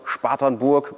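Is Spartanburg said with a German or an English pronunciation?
German. The name is pronounced the German way. The speaker calls it wrong.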